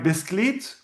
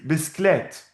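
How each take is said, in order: First: "biscuit" said bis-kleet, with a long ee; slow "bis-kleet", rising at the end; spelling pronunciation. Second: "bisklet" with an open e, bis-klett; "bisklet" with e rather than ee, falling; read pronunciation. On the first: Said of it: "We write biscuit". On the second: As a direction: say "bisklet" slowly, ending in "klet". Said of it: "we read bisklet". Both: Shown as a demonstration.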